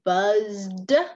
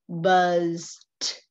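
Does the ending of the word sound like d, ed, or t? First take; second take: ed; d. First: The word ends with an extra ed syllable. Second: The word ends with a plain d sound. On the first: The speaker calls it wrong. "Sometimes the sound E D in a word sounds like ed" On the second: The speaker calls it right. "We just say buzzed"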